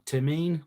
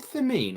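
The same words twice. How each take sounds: First: The name begins with a plain T sound. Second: The name begins with a TH sound.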